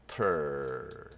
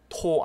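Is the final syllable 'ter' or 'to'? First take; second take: ter; to. First: The syllable ends with a weak 'er' vowel. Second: The syllable ends with a full 'o' vowel. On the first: The speaker calls it right. "그냥 ter입니다" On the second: The speaker calls it wrong. "토 아니고"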